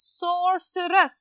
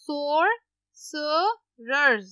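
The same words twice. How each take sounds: First: Said in the usual way. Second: Sorcerers drawn out very slowly; slow syllables. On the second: Shown as a demonstration. (Sorcerers को बहुत धीरे खींचकर बोलें) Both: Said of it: "इसको पढ़ लेते हैं".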